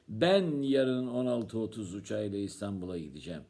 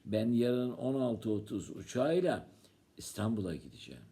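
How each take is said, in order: First: The word 'Ben' is stressed. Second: The word 'İstanbul'a' is stressed. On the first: It is the speaker who will go. "Kim gidecek?" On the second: The destination is Istanbul. "Sen yarın nereye gideceksin?"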